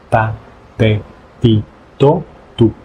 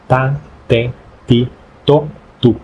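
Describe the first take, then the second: No difference in how they are said.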